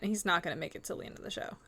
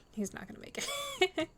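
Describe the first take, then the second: First: Said in the usual way. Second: Mock doom, pitched way up; dramatic high pitch. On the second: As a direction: sing it out high like a tragic verdict. Repeats prediction for dramatic effect.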